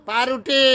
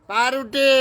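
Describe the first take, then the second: Both takes have the same delivery.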